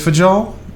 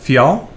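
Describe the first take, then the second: First: The middle consonant is a hard J sound. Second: The middle consonant is a soft Y sound. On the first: The speaker calls it wrong. "is it actually a, a J sound?" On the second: The speaker calls it right. "it's kind of a Y, but not not a hard Y"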